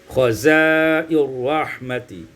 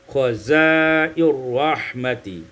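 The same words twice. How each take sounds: The two takes are said the same way.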